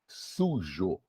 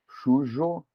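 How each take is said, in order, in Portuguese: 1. A palavra começa com som de s. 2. A palavra começa com som de ch.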